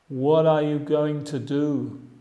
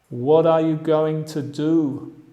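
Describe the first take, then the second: The two takes are said the same way.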